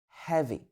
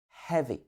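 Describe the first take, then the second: First: The first sound is a soft breath of air. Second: The same.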